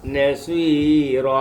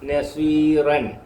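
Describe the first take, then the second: First: The word ends with a long vowel. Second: The word ends with an n sound. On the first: The speaker calls it right. "നാം വായിക്കേണ്ടത് നസ്വീറ" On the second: The speaker calls it wrong. "നസ്വീറൻ എന്നാണ് എഴുതിയേക്കുന്നത്"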